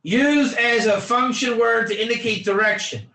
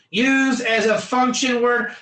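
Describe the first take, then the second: First: Said in the usual way. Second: Teacher barking the phrase for emphasis; emphatic call-out. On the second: Shown as a demonstration. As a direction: hammer the phrase home to the class.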